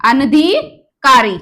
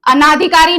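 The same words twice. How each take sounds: First: अनधिकारी said slowly with a short अ after न; अनधिकारी drawn out, अन-धि-का-री with no long आ; slow correct form. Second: अनाधिकारी said with a long आ after न, as the error; अनाधिकारी, the extra long आ marking the mistake; wrong form shown. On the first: Teacher stresses the right spelling for exams, slow. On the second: Teacher names the wrong spelling for students, plain. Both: Shown as a demonstration. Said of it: "अनाधिकारी नहीं होता है".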